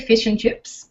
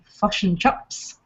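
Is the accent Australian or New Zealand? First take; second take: Australian; New Zealand. First: It is said in an Australian accent. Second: It is said in a New Zealand accent. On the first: "we say" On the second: "Kiwi say"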